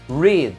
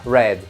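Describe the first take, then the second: First: The vowel is long, like in 'seed'. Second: The vowel is short, like in 'bed'. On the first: The action is in the present. "No presente ficará read" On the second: The action happened in the past. "no passado ficará read"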